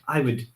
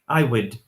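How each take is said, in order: First: The word would is short and reduced. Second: The same.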